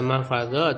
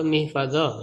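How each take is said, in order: First: The first vowel is a, as in mah. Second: The first vowel is i, as in mih. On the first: It names a place for keeping something. "Kalau mahfadah itu ah, tempat menjaga" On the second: It names a tool for keeping something. "kalau mihfadah alat menjaga"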